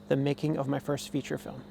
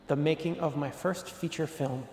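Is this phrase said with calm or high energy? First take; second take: calm; high energy. First: It is said calmly with ordinary energy. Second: It is said with more enthusiasm and energy.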